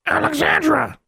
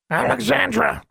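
First: Very high, angry bird screech; angry raven squawk. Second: High squawking bird voice; raven squawk. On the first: Caged raven protesting to its owner, squawking angrily. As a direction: squawk the name furiously like a raven. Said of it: "squawked Charlie, angrily now". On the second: Agitated raven calling to its owner, squawking. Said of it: "squawked the raven". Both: A narrator's reading.

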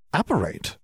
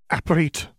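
First: "Apparate" echoed as a puzzled question, higher pitch. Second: Said in the usual way. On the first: A narrator's reading. Mother repeats the new word "Apparate", questioning. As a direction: query the unfamiliar word "Apparate". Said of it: "repeated with a questioning tone". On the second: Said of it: "McGonagall supplied".

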